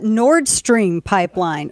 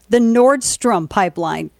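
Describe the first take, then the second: First: The name ends with a clear 'stream' sound. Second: The name ends with a short 'strom' sound. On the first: The speaker calls it right. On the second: The speaker calls it wrong.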